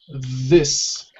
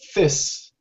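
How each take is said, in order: First: The th sound is voiced and vibrating. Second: The th sound is soft and voiceless. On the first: The speaker calls it right. "the second one is the strong or the vibrated one" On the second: The speaker calls it wrong. "if I use the soft th sound with the same word, it'll sound like this"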